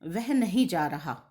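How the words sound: It is said with a statement intonation. The person is not going somewhere they were meant to go. "वाक्य का अर्थ हुआ अ, निषेधात्मक"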